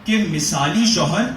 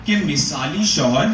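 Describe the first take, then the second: No difference in how they are said.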